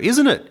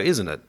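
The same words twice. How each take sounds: First: The voice rises at the end. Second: The voice falls at the end.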